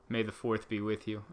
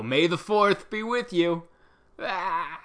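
First: Said in the usual way. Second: "May the fourth be with you." hammed up, high, loud and slow; cheesy fan greeting. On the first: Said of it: "What else is trending?". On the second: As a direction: drag out "fourth" like an eager fan. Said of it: "people that would go".

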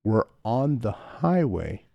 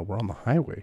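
First: Slow, deliberate we're on the highway; slow exasperated. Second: Said in the usual way. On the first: Retold or imitated. Husband explaining to sick wife, slow and exasperated. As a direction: spell it out patiently to a drunk.

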